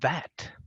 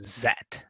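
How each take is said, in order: First: The word begins with a voiced th sound. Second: The word begins with a buzzing z sound. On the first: The speaker calls it right. "it's a that" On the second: The speaker calls it wrong. "like a Z sound"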